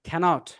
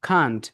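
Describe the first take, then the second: First: The word is said in full, two syllables. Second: The word is said contracted, one syllable. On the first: "এটা উচ্চারণ হচ্ছে ক্যানট।" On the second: "এটার short form হচ্ছে can't"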